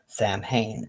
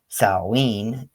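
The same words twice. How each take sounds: First: It uses the US pronunciation of the word. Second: It uses the Welsh pronunciation of the word. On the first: "sometimes Samhain in the U S" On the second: "Samhain in Wales"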